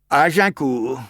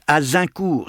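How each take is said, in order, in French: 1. La consonne du milieu est un son j doux. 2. La consonne du milieu est un son z. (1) "c'est bien ce que j'ai dit" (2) "On prononce Azincourt"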